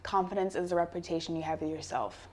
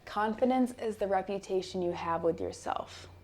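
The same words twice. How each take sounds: First: It is said at a normal speed. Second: It is said slowly and deliberately.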